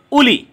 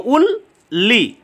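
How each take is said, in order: First: Said in the usual way. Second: "উল লি" slow, with a gap between the parts; two separate syllables. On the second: Shown as a demonstration. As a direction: split "উল লি" into two beats. ("উল লি" দুই ভাগে, ধীরে) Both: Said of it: "এখানে দুটো syllable".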